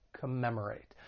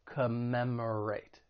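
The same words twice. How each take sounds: First: Said in the usual way. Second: Commemorate drawn out slowly, MEM stressed; stress on second syllable. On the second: Shown as a demonstration. Teacher modelling pronunciation, Commemorate slow with second syllable stressed. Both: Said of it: "stress is on that second syllable".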